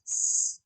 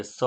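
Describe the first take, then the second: First: સ as only air, "sss", no vowel; pure hissed S. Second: સ voiced with a drawn-out vowel; wrong sa sound. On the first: Teacher showing pupils the right sound, સ as a bare hiss. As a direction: let સ hiss without voicing it. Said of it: "ખાલી સ હવા કાઢવાની છે". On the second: Teacher showing pupils the wrong reading, સ with a vowel. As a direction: say સ as a full "saa" syllable. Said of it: "નહીં". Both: Shown as a demonstration.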